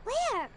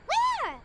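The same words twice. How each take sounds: First: Said in the usual way. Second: Higher, louder, keen; eager repeated question. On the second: Acted. Assistant searching the crowd for Juri, eager louder call. Looking around for Juri, again.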